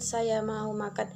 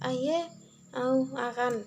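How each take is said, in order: First: The words are pronounced clearly and normally. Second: The sounds are distorted, with the tongue held back. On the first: The speaker's tongue is healthy. "dia mau mengucapkan" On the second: The speaker has a painful sore on the tongue. "dia ibarat menjauhi dari bagian yang tepi-tepi ini agar tidak tersentuh"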